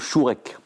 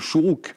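First: The word is said as shorek. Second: The word is said as shuruk. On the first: This is the form used in the Zohar. "mais dans le Zohar on dit le Shorek" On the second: This is the modern Hebrew form. "en hébreu moderne on dit le Shourouk"

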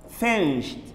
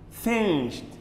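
Both takes have the same delivery.

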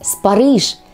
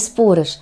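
First: The stress is on the last syllable. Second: The stress is on the first syllable. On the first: The speaker calls it right. "Именно так – спарыш... с ударением на последний слог" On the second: The speaker calls it wrong. "а не спорыш"

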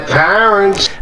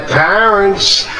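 Both takes have the same delivery.

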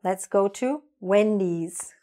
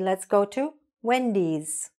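First: The name ends with an s sound. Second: The same.

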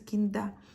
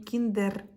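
First: The final r is silent, ending in a. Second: The final r is pronounced clearly. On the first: The speaker calls it right. "R не читається кінда" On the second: The speaker calls it wrong. "тут не кіндер"

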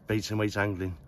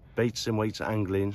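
First: It is said at a normal, quick pace. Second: It is said slowly and deliberately.

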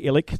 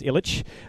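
First: The name is pronounced in an anglicized way. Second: The name is pronounced in the Serbian way. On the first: This is how the speaker says their own name. "I say Ilic" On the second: This is the original way of saying the name. "The proper way to say it is Ilic"

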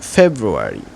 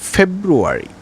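First: The r sound after the b is pronounced. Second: The r sound after the b is pronounced.

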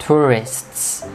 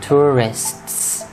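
The two takes are said the same way.

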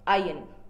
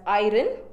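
First: The word sounds like 'eye-urn'. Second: The word sounds like 'eye-ron'. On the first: The speaker calls it right. "but the correct pronunciation is iron" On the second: The speaker calls it wrong. "You have heard most of them pronouncing it as iron"

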